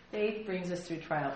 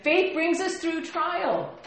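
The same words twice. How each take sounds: First: Softer, slow restatement; soft repeat. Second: High, loud, slow proclamation; emphatic. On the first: Pastor repeating the point, soft and slow. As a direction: say it again gently. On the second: Pastor correcting himself, slow loud proclamation. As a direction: proclaim it slowly and strongly. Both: Shown as a demonstration. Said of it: "I did say that, didn't I?".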